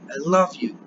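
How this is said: The stress falls on the word love. I love you rather than hate you. "It's saying no, I don't hate you"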